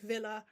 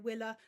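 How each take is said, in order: First: The word begins with a V sound. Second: The word begins with a W sound.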